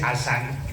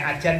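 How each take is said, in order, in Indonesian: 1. Konsonan tengahnya bunyi s. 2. Konsonan tengahnya bunyi j. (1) "Kalau orang Bugis asan" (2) "Kalau orang Subang kelebihannya ajan"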